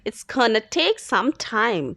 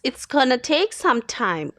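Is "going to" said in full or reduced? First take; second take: reduced; reduced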